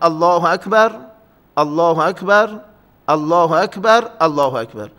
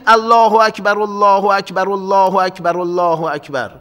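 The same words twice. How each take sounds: First: A breath-length pause separates each phrase. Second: The phrases run together without pauses between them. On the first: The speaker calls it right. "در اذان اینها رو از هم جدا کنید" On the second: The speaker calls it wrong. "نگیم ... به هم بچسبونیمش"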